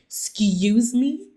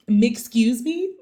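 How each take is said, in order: First: Louder, slow, disbelieving Excuse me?; stunned disbelief. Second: Louder, slow, laughing Excuse me?; laughing disbelief. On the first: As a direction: replay the shock of hearing Netflix. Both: Retold or imitated. Hearing the client is Netflix.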